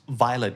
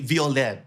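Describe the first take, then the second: First: It is pronounced in the English way. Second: It is pronounced in a non-English way.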